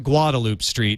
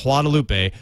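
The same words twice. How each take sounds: First: "Guadalupe" anglicized as GWAH-da-loop; local Texan pronunciation. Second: "Guadalupe" as wah-da-LOO-pay; Spanish pronunciation. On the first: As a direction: say "Guadalupe" the Austin way, silent final e. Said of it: "I'm gonna call it Guadalupe Street". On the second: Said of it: "instead of Guadalupe". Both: Shown as a demonstration.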